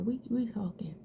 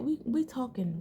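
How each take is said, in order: First: Whispered. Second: Said in the usual way. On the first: Shown as a demonstration. To viewers taking their time on brows, whispered. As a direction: repeat We, we talking in a whisper.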